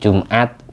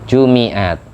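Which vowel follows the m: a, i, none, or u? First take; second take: none; i. First: The m is followed by no vowel. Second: The m is followed by an i vowel. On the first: "bisa dibaca sukun" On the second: "Ada yang membaca kasroh mim"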